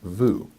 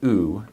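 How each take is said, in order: First: It starts with a V sound before the vowel. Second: It is a bare vowel with no V sound. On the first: The speaker calls it wrong. "not vu" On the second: The speaker calls it right. "you pronounce it u"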